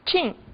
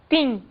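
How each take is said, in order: First: The T before I sounds like 'ch'. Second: The T before I sounds like plain 't'. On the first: A regional way of saying it that the listener did not understand. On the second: A way of saying it that the listener understood.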